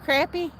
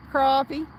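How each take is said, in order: First: "Crappie" said as CRAP-pee, a as in cat, rising; second try: "Crappie" with the a of cat; "crappie" with short a. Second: "Crappie" said as CRAH-pee, open ah vowel; first try: "Crappie" with an ah sound; "crappie" with broad a. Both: Shown as a demonstration. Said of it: "How do you say it?".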